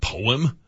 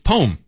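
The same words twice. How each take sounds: First: The word is said with two syllables. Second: The word is said as one syllable. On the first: The speaker calls it wrong. "It's not poem" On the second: The speaker calls it right. "It's poem. If he's spelling it P-O-M-E"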